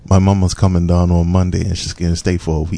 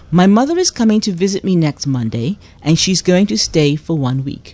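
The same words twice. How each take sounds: First: Casual, run-together Bermudian; Bermudian accent. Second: Carefully enunciated standard English; proper English. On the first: Guest translating the host's phrase, Bermudian accent. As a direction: reel it off in everyday Bermudian. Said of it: "give it to me in your best Bermudian accent". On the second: Host reading out a phrase to translate, proper English. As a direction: read it properly, every word in full. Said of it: "in the Queen's English". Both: Shown as a demonstration.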